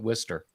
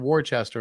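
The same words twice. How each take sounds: First: It is said the local way. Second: It is said just as it is spelled. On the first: "we pronounce it Worcester" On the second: "It literally is spelled Worcester"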